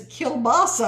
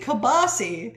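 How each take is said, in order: First: It is said with the 'l' sound. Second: It is said without the 'l' sound. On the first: This is the standard form of the word. The speaker calls it right. "but it's kielbasa" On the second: This is how the speaker's family says it. The speaker calls it wrong. "we say kibasi"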